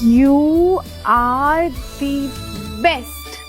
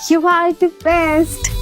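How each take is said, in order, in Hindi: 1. यह लाइन सपाट लहजे में बोली गई है। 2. यह लाइन गर्व भरे लहजे में बोली गई है। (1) "अरे ऐसे कौन बोलता है" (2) "थोड़ा प्राउड फीलिंग के साथ"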